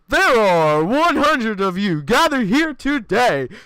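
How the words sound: It is said in a put-on announcer voice.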